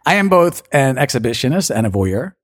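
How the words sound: It is said in an American accent. "I think I should do American first"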